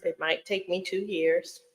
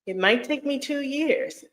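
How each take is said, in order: First: Said in the usual way. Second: Higher, tentative second pass at the admission; high-pitched repeat. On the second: Real, not acted. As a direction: lift the pitch well up, as if still hedging. Repeats it before conceding reality.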